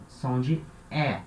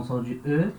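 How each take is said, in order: First: The E in "som de E" as an open "eh"; som de E aberto. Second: The E in "som de E" as a rounded French "euh"; som de E fraco. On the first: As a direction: say the letter E wide open, like È. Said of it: "pra indicar esse som de E". ("E" bem aberto, como em "pé") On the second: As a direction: say the letter E as a weak "euh". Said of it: "então som de E". ("E" dito como o "eu" francês, arredondado) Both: Shown as a demonstration.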